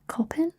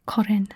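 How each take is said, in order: First: "kopin" with a p in the middle; dialect variant pronunciation. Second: "korin" with an r in the middle; standard taught pronunciation. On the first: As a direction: say "kopin" as the other dialect form, p replacing the r. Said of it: "some people also say kopin". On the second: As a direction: say "korin" as the taught form, r rather than p. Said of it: "but this one is korin". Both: Shown as a demonstration.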